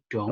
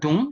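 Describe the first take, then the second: First: The vowel is an open 'o' sound. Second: The vowel is a closed 'u' sound. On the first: The speaker calls it right. "tapi dong" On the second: The speaker calls it wrong. "bukan dung"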